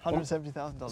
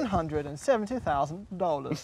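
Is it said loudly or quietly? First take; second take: quietly; loudly. First: It is said at a quieter volume. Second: It is said at a louder volume.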